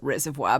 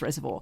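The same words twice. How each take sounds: First: The name is said in a careful, formal way. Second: The name is said in a relaxed, local way. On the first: This is how outsiders think it should be said. The speaker calls it wrong. "my mother tries to tell me you pronounce it reservoir" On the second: This is how residents actually say it. The speaker calls it right. "if you live in Reservoir, it's Reservoir"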